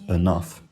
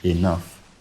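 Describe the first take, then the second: First: The first vowel sounds like a short 'uh'. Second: The first vowel sounds like a short 'ih'. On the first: "not enough" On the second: "for me that's still pronounced with an I today. I say enough"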